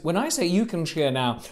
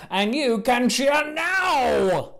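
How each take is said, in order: First: Said in the usual way. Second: Host rousing the crowd, slow and broad; slow, rousing invitation to cheer; big cue to cheer. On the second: Shown as a demonstration. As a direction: draw out the cheer cue slowly. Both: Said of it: "Let's try this again".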